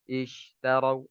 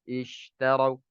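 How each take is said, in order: Both takes have the same delivery.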